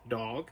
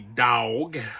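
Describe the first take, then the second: First: It is said in a northern, New York-ish accent. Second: It is said in a North Carolina Southern accent.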